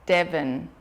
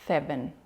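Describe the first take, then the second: First: The first sound is a short stopped d. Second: The first sound is a long lisped hiss. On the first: The speaker calls it wrong. "we haven't got that long flowing sound" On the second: The speaker calls it right. "with the lisp"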